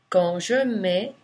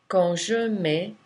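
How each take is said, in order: Both takes have the same delivery.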